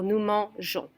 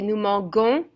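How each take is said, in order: First: The g is a soft zh sound. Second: The g is a hard g sound. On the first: The speaker calls it right. "keep the E to keep the je sound" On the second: The speaker calls it wrong. "If you drop the E, you would say nous mangeons, and that is not right"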